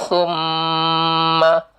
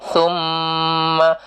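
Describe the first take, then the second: The two takes are said the same way.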